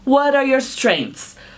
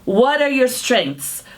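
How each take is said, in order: The two takes are said the same way.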